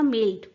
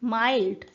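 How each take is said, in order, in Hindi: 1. यह स्वर एक ही स्थिर स्वर है। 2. यह स्वर डिप्थोंग की तरह फिसलता है। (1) "यहाँ इसकी जगह यूज किया जाता था" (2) "आ ई डिप्थोंग है ना यहाँ पर"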